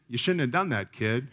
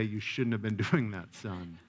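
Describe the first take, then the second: First: Matter-of-fact parental reproof; unsympathetic scolding. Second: Softer, lower parental correction; gentle reproof. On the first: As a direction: scold the kid without any sympathy, mildly. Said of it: "My natural reaction is". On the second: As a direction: tell the child off gently, voice dropping away. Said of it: "And then you can say". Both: Acted.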